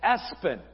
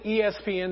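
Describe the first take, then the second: First: It is said as one two-syllable word. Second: It is spelled out as four separate letters. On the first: The speaker calls it right. "You pronounce it Espen" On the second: The speaker calls it wrong. "You don't pronounce it ESPN"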